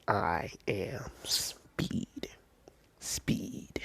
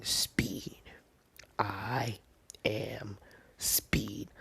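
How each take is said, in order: First: Drawn-out whisper, zoning in; slow whispered mantra. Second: Chanted, whisper each word to yourself, hushed and focused; chanted, breathy mantra, barely voiced; whispered inner chant. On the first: Retold or imitated. Deku zoning in on the robots, very slow whispered mantra. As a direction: stretch each word out in a very slow, hushed whisper. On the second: Deku psyching himself up before the test, whispered chant.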